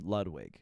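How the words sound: The name is said with American pronunciation. "full fucking you know Americanization Ludwig"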